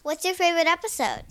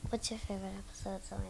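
First: Said in the usual way. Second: Much softer, fast hushed repeat; quick hushed aside. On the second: Real, not acted. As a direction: rush it under your breath.

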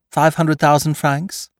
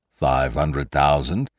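First: High, slow questioning offer; teasing high-voiced bargainer; Lupin naming his price. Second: Slow, low-pitched echo; reluctant prisoner mulling an offer; captive weighing the price. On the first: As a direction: float the price brightly, pitched up. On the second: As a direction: repeat it slowly, turning it over. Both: A narrator's reading.

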